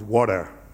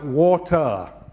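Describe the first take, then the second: First: The T sound is dropped. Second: The T sound is clearly pronounced.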